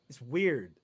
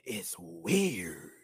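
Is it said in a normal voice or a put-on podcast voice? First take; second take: normal voice; podcast voice. First: It is said in their normal speaking voice. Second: It is said in a put-on podcast-host voice.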